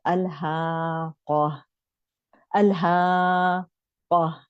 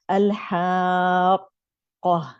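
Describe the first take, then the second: First: अल्हाक़ा drawn slowly with ह and क split; wrong madd. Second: अल्हाक़ा very slow, alif stretched long; correct madd. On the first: Teacher demonstrating a common mistake to the class. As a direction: say अल्हाक़ा slowly, the ह and क not joined. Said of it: "mistake हम पढ़ते हैं". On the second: Teacher demonstrating the correct reading to students. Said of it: "तो हमें इसे पढ़ना चाहिए". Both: Shown as a demonstration.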